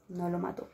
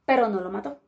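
First: Hushed repetition for suspense; quiet echo. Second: Said in the usual way. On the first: A narrator's reading. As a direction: drop to a near-whisper repeat.

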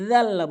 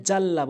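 First: জাল্লা as "dhalla", tongue tip at the teeth; soft dhal. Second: জাল্লা with a hard j, as "jalla"; wrong j. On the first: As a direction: start জাল্লা with a voiced "th" sound. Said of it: "জিব্বার আগা দাঁতের আগে". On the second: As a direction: say জাল্লা starting with a plain Bengali j. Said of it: "এখানে জাল্লা বলে". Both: Shown as a demonstration.

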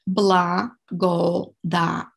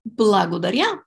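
First: Благодаря very slowly, split Бла-го-да-ря; syllable by syllable. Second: Said in the usual way. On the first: Shown as a demonstration. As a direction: sound out each syllable of Благодаря for learners. Teacher breaks the word down.

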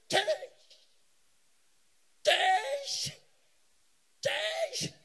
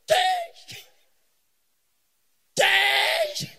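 First: High, piercing mock rallying cry; imitated high-pitched street shout; mimicked crowd shout. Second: Very loud, high slogan yell; full-volume mock rallying shout; hammed-up shout. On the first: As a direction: shout it high, like people jeering on sight. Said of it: "they shout". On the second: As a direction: bellow it at full force, drawn long. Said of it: "let me shout".

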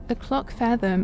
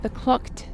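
First: Said in the usual way. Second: "the clock t-" broken off unvoiced mid-word; cut-off first try. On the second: Real, not acted. Player misreading the clock's name, a broken-off first try. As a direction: stumble and stop on "the clock t-".

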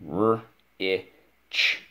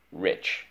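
First: R-I-C-H as isolated sounds with gaps; sounding out. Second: Said in the usual way. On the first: Shown as a demonstration. Teacher models spelling rich for pupil, sounding out. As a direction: separate the sounds in R-I-C-H. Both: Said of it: "is the word rich".

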